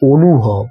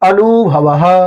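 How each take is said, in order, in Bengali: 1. প্রথম স্বরধ্বনিটি 'o'-এর মতো শোনায়। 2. প্রথম স্বরধ্বনিটি খোলা 'a'-এর মতো শোনায়। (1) "মানে অটাকে ও এর মতো করে উচ্চারণ" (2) "সংস্কৃত আ"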